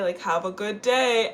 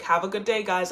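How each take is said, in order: First: Slow, polite brush-off of have a good day; dismissive. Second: Said in the usual way. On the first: Shown as a demonstration. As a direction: drag out a sweet but final goodbye. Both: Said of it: "And I'm saying it like that".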